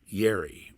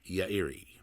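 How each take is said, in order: First: The name is pronounced the usual Western way. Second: The name is pronounced the original Japanese way. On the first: The speaker calls it wrong. "as we call it, say in this in the West, ... which is an in- incorrect pronunciation" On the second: The speaker calls it right. "their last name was"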